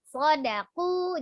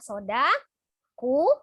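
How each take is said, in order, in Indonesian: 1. Kata itu mengalir sebagai satu dengan da yang pendek. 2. Kata itu terpisah setelah da yang dipanjangkan. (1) "tapi sodaku" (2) "jadi bukan dipisah dibacanya soda ku bukan ya"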